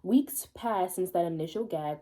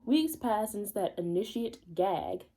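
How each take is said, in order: First: "initial" said properly as in-ish-ul; corrected reading of "initial"; corrected word. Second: "initiate" read as ini-shee-ate, the wrong word; slowly misreading "initiate". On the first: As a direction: fix it to "initial". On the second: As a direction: say "initiate" where initial belongs. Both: Shown as a demonstration. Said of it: "initial is what they were thinking of".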